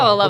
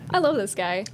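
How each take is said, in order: First: It sounds clearly sarcastic and mocking. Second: It sounds sincere rather than sarcastic. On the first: The speaker actually dislikes the person. The speaker calls it right. "so that was sarcasm. Like, oh" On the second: The speaker seems to really like the person. The speaker calls it wrong. "the delivery wasn't delivered properly"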